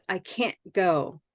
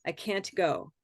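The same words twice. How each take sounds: First: "can't" ending in a glottal stop instead of a T. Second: "can't" said with a clear T at the end; T released. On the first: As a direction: stop the T of "can't" in the throat, slowly. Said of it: "what you'll hear from North Americans is this". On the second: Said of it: "it's perfectly acceptable to use can't". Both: Shown as a demonstration.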